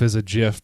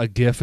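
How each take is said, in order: First: "gif" starting with a j sound; soft g at the start of "gif". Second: "gif" starting like give; hard g at the start of "gif". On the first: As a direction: say "gif" as jif. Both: Shown as a demonstration. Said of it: "because the creator says gif".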